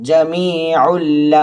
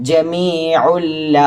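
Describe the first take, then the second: Both takes have the same delivery.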